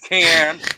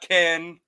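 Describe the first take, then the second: First: The vowel is like the 'a' in cat. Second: The vowel is like the 'e' in bed. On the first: The speaker calls it right. "It's can" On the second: The speaker calls it wrong. "not Ken. That's not a real thing"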